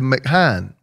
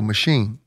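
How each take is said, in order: First: It starts with a 'mack' sound. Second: It starts with a 'mash' sound. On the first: The speaker calls it wrong. "I was mispronouncing words" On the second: The speaker calls it right.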